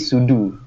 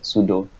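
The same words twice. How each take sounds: First: The word ends with a 'doo' sound. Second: The word ends with a different vowel sound. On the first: It follows the full form 'super user do'. The speaker calls it wrong. "So it is actually sudo, but it sounds awkward" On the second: It is the everyday way people say it. The speaker calls it right. "So we we usually pronounce it at sudo"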